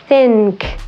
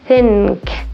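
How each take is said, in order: First: The nasal is made with the tongue tip forward. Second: The nasal is made with the tongue tip forward.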